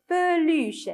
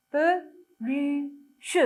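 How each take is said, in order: First: Said in the usual way. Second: "Peluche" in three slow, separate syllables; split into syllables. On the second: Shown as a demonstration. Teacher showing children the syllable order, "Peluche" broken into separate syllables. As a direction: sound out "Peluche" as pe, lu, che with gaps. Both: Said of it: "on commence par quelle syllabe".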